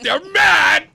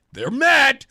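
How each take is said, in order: First: Much higher and louder, shouted in triumph; gleeful shout. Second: Higher and louder, delighted glee; excited. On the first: Host shouting to Rosette that listeners are mad, gleeful shout. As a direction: yell it out in delight. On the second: Host gloating to cohost that listeners are mad, excited. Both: Real, not acted. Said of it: "I get excited".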